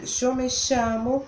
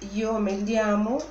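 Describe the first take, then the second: First: The ll sounds like sh, Rioplatense style. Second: It is said in a Peninsular Spanish accent. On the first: "com o som do sh ... espanhol rioplatense" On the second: "isso corresponderia à variante do espanhol peninsular"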